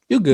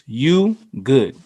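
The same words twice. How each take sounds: First: It sounds relaxed and forgiving. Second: It sounds concerned and caring. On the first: The other person is forgiven. "like you're forgiven. Like, oh my bad" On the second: The speaker is checking whether someone is okay. "this could mean literally, are you okay?"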